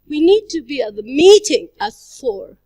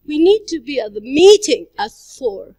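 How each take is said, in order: First: The word 'meeting' is stressed. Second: The word 'meeting' is stressed.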